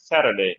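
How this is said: The t is a quick, relaxed tongue flap. "তারা flap, মানে একটু রিল্যাক্স আর কি"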